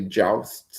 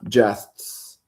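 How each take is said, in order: First: The vowel sounds like the one in 'joust'. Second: The vowel sounds like the one in 'jest'. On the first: It means combats on horseback. "but it might be jousts" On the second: It means deeds. "I pronounce it jests"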